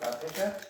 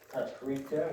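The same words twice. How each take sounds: First: It is said the Eastern European way. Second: It is said the usual American way.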